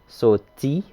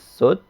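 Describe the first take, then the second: First: The word is said in full with its final vowel. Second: The word is shortened and the final vowel dropped.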